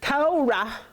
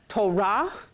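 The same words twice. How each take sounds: First: The stress is on the first syllable. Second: The stress is on the second syllable. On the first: The speaker calls it wrong. "instead of Torah" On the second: The speaker calls it right. "Using our accent on the right syllable, we get Torah"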